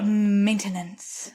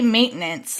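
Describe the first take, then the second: First: The word is said with three syllables. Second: The word is said with two syllables. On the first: "which is probably absolutely correct" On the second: "that's a two-syllable word for me"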